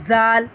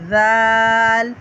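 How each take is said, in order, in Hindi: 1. पहला व्यंजन सख़्त और ज़ोरदार है। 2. पहला व्यंजन नरम है, ज़ुबान दाँतों के बीच। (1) "ज़ाल नहीं पढ़ेंगे सख्ती के साथ" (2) "दोनों दांतों के बीच में ज़ुबान रख के"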